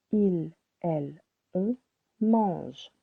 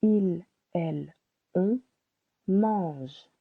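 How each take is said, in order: Both takes have the same delivery.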